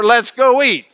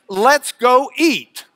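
First: Said in the usual way. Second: Slow gloss. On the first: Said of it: "That's Lubbock for". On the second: Shown as a demonstration. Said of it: "It means".

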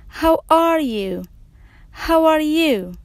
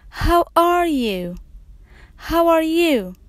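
The two takes are said the same way.

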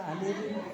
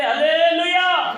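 First: Very quiet, low hallelujah; soft hallelujah. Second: Long, drawn-out hallelujah, high and loud. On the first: Shown as a demonstration. Preacher showing the congregation a gentle way, soft hallelujah. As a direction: barely voice it, as if not to wake anyone. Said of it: "నెమ్మదిగా చెప్పండి రా". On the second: Real, not acted. Preacher rousing the congregation, loud drawn-out hallelujah. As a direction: call it out slowly at full voice. Rousing shout, later contrasted soft.

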